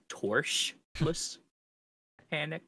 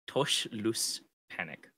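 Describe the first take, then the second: First: The R in the first syllable is pronounced. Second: The R in the first syllable is silent. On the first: The speaker calls it wrong. "it looks like it's Torschluss panic. Because it has an R" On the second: The speaker calls it right. "so you don't pronounce it"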